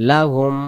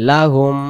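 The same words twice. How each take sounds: No difference in how they are said.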